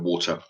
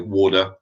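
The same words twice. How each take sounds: First: The middle consonant sounds like a T. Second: The middle consonant sounds like a D. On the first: "instead of T" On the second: "they'll pronounce it D instead of T"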